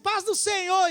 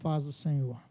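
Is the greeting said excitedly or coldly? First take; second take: excitedly; coldly. First: It is said with warm excitement. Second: It is said flatly and without warmth.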